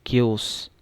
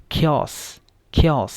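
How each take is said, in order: First: Chaos said with "ch"; wrong reading. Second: Chaos with an aspirated "kh", "KHAY-os"; correct pronunciation. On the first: Teacher showing the misreading to students. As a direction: read chaos starting with a "ch" sound. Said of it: "ये chaos नहीं है". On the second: Teacher modeling the aspirated k for students. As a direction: start chaos with a puff of breath. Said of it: "तो ख पढ़ना है". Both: Shown as a demonstration.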